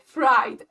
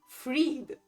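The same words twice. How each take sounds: First: The vowel is an English 'eye' sound. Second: The vowel is a long 'ee' sound. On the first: The duck seems to be named after something cooked. The speaker calls it wrong. "my brain ... hasn't switched from English to German pronunciation. So I read fried" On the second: The duck has an ordinary personal name. The speaker calls it right. "In Germany, it will be pronounced Fried, like from Friedrich"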